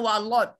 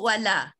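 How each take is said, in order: First: The L is heavy and thick. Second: The L is light and thin. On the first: The speaker calls it wrong. "Jangan walot" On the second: The speaker calls it right. "tetap kita sebut wala"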